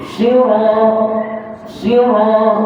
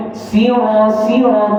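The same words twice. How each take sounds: First: "Sira" higher, with a thick raised-tongue s; heavy sad. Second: "Sira" higher, with a light, spread-lipped s; thin sin. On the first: Quran teacher drills last sad, "sira" with heavy s. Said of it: "Lidah naik lagi". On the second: Quran teacher shows the smiling mistake, "sira" with light s. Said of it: "huruf sin". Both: Shown as a demonstration.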